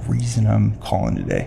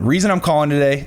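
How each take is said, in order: First: It is said in a mysterious, intriguing, secretive way. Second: It is said in a flat, certain, matter-of-fact way. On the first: There is a secret about to be shared. The speaker calls it right. "it's like I have a secret. I need to let you in on" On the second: The reason is obvious and nothing is hidden. The speaker calls it wrong. "like that's obviousness and certainty. That can sound very arrogant"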